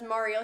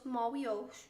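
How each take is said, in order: First: The word is said with a clear R sound. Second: The word is said without an R sound.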